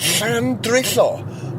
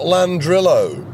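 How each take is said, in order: First: The name starts with the Welsh 'll' sound. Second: The name starts with a plain English 'l'. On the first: The speaker calls it right. "it pronounced it in the Welsh way" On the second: The speaker calls it wrong.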